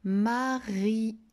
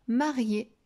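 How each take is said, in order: First: "Marié" split as ma, ri, é; "Marié" decoded part by part; sounded out. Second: Said in the usual way. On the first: Shown as a demonstration. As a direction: stretch "Marié" slowly, final é set apart. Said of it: "rajouté un son à la fin".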